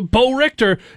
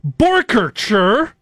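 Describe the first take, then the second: First: The name is said as two words, Bo Richter. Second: The name is said slowly as one word, Borkercher. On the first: The speaker calls it wrong. "Gus Johnson mispronouncing his name" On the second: The speaker calls it right. "slowed down the pronunciation on the air"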